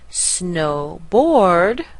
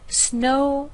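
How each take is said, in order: First: The stress falls on the second part, board. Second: The stress falls on the first part, snow. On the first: The speaker calls it wrong. "we don't have snowboard, where you're going to stress the word board" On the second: The speaker calls it right. "You need to stress the first word of the compound noun"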